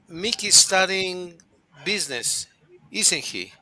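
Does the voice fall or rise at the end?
fall. The voice falls on the tag at the end. The speaker is sure and is just confirming. "I'm pretty sure that he's studying business"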